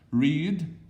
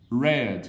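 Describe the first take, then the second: First: The vowel is long, like in 'reed'. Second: The vowel is short, like in 'red'. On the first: It is the present form. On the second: It is the past form.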